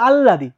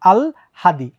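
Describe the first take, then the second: First: A long l is heard with no h. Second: The l sound comes before the h. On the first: The speaker calls it wrong. "অনেকে বলে আল্লাদি, এটা কিন্তু ভুল" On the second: The speaker calls it right. "আগে ল পরে হ"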